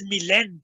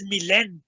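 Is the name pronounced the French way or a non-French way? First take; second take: French; French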